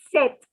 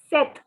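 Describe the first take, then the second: The two takes are said the same way.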